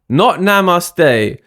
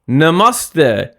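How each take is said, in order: First: It is said with an anglicized English pronunciation. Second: It is said with the native Hindi pronunciation. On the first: The speaker calls it wrong. "you can't pronounce the word properly" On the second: The speaker calls it right. "Namaste, not namaste"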